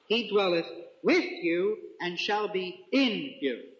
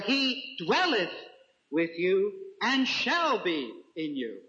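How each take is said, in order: First: The words with and in are stressed. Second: The word shall is stressed. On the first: The presence moves from outside to inside. "it's just the emphasis I put on two words. ... Notice that contrast, stark" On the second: The presence will continue after a departure. "The second way of reading emphasizes the assurance"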